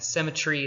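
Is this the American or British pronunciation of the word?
British. It is said with a British pronunciation. This is the older aristocratic English form.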